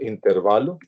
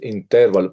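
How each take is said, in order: First: The stress is on the second-to-last syllable. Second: The stress is on the third-to-last syllable. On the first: This is the everyday way people say it. The speaker calls it wrong. "nosotros decimos intervalo" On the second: This follows the Latin-based rule. The speaker calls it right. "las palabras siempre son esdrújulas o sobresdrújulas"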